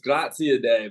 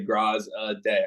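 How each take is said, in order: First: The name is said fully, with more syllables. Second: The name is cut down to three syllables. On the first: This is the true form of the name. "but it's Grazie a day, but I would never expect anyone to say that" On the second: This is an easier form for others to say. "I try to break it down into those three different uh, syllables"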